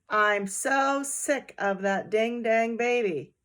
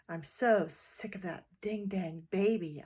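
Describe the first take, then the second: First: It is said loudly. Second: It is said quietly.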